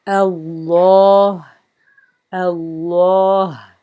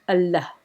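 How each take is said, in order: First: Allah said slow and full with a long open a, a bit louder; correct Arabic Allah. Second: Allah with a short flat English a, said in passing; wrong flat Allah. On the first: Teacher showing students how Allah is written to be read, slow and clear. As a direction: sound out Allah carefully, the proper Arabic way. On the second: Teacher showing the wrong reading of Allah, quick and flat. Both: Shown as a demonstration. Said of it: "not Allah".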